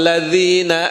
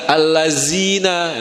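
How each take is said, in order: First: The middle consonant is a soft 'dh' sound. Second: The middle consonant is a buzzing 'z' sound. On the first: The speaker calls it right. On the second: The speaker calls it wrong.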